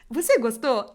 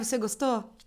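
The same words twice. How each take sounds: First: The tone is forced and overly eager. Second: The tone is cool, aloof and blasé. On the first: This is how ads used to talk. "eu tô tipo forçando uma coisa" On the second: This is how ads talk now. "soa antipático, soa tipo assim, blasezão"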